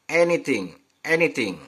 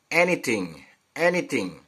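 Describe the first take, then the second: The two takes are said the same way.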